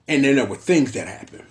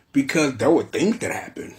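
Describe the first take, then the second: First: Things given the weight, not were; stress on things. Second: Were pushed out, things that happened tucked after it; stress on were. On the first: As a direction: land the word things. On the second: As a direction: lean on the word were. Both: Shown as a demonstration.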